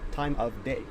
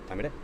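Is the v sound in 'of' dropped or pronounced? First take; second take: pronounced; dropped. First: The v sound in 'of' is pronounced. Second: The v sound in 'of' is dropped.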